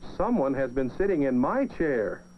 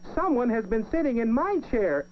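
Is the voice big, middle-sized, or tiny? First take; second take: middle-sized; tiny. First: It is said in a middle-sized voice. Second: It is said in a tiny, small voice.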